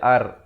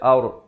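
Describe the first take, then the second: First: The r is said light and thin. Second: The r is said heavy and full-mouthed. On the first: The speaker calls it wrong. "Jangan baca ar" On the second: The speaker calls it right. "Dia baca aur"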